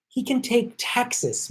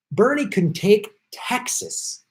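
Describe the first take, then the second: First: Higher, slow, leaning hard on "can" in "He can take Texas"; stress on can. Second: Said in the usual way. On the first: Real, not acted. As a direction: hit "can" to insist it really is possible. Repeats Texas claim twice.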